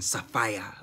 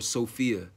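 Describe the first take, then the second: First: The name is pronounced the African way. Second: The name is pronounced the anglicized way. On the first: The name keeps its original heritage. "the more African Sophia" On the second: The name is made to fit in more. "we would call her Sophia or Sophia or Sophie ... to kind of like water down"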